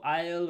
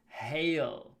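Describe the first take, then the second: First: The word starts without an h sound. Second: The word starts with a clear h sound. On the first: The speaker calls it wrong. "Not ale or ale or anything like that" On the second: The speaker calls it right. "Remember to pronounce the H"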